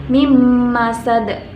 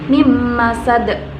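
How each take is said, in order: First: The n merges into the following m sound. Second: The same.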